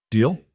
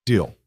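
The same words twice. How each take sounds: First: "Deal" rising as a question; offering a deal. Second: "Deal" falling, settled; accepting. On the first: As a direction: ask it lightly, rising. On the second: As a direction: agree with a falling close. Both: Acted.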